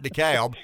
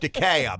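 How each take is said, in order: First: The L sound is clearly pronounced in the name. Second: The L sound is left out of the name. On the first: The speaker calls it wrong. "It's not DeKalb, but take the damn L out" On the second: The speaker calls it right. "It's DeKalb"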